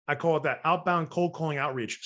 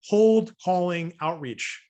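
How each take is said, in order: First: Said in the usual way. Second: Slow and louder, each word of "cold calling outreach" spelled out; "cold calling outreach" said slowly, higher and louder; stressed term. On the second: Shown as a demonstration. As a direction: lean hard on "cold".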